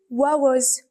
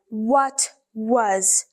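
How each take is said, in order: First: The words are run together in a fast, reduced form. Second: Both words are said fully and carefully. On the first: The speaker calls it right. "when they are speaking fast, ... They say what was" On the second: The speaker calls it wrong. "they don't say what was"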